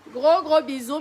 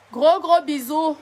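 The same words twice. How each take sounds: First: Said in the usual way. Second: Slow, stretched and louder, blowing kisses; drawn-out goodbye. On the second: Real, not acted. Streamer signing off to her fans, slow and stretched. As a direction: linger on each gros as you send love.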